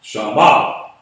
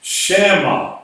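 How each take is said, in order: First: "Shama" with a long ah in the open first syllable, rising onto MA; long A sound. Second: "Shama" as SHAM-ma, short flat a as in "sham"; closed first syllable. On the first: Teacher showing the long-A reading of the word, "Shama" said SHAH-MAH. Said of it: "long A sound". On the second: Teacher correcting to the doubled-mem reading, "Shama" said SHAM-ma. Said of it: "you really should pronounce that". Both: Shown as a demonstration.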